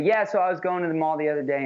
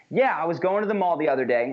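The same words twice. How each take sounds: First: Without conviction. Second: Firm, assured opening that holds the floor; stronger, with conviction. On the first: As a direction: lose your nerve and let the sentence fade out. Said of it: "This is the wrong way, without conviction". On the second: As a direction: speak as if it deserves to be heard. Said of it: "but much stronger is". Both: Shown as a demonstration.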